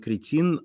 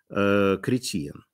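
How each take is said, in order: First: The name is said with two syllables. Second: The name is said with three syllables. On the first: The speaker calls it wrong. "он не кретин" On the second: The speaker calls it right. "а... Кретиен"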